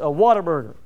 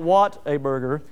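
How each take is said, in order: First: The words are run together quickly. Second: The words are said slowly and separately. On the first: The speaker calls it right. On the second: The speaker calls it wrong.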